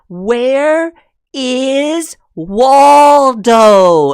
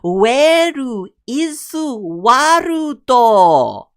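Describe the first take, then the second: First: It is said with a native English accent. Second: It is said with a Japanese accent. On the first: "if you're trying to be like" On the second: "the English version of of of Japanese"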